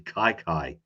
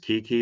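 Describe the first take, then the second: First: Both syllables are said with an 'eye' vowel. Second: Both syllables are said with an 'ee' vowel. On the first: The speaker calls it right. "it's actually Kai Kai" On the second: The speaker calls it wrong. "I always thought was Kiki"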